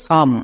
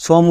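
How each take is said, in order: First: সাম as one syllable, 'a' replacing the 'o'; correct sight-word pronunciation. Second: সম sounded out by spelling, o as in 'home'; wrong rule-based pronunciation. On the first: Teacher gives students the sight word, সাম with open 'a'. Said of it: "সাইট ওয়ার্ডসের উচ্চারণটা হবে সাম". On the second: Teacher shows students the misreading, সম with an 'o' vowel. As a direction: say সম with a rounded 'o' vowel, like 'shom'. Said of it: "এখানেই ভুল করি". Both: Shown as a demonstration.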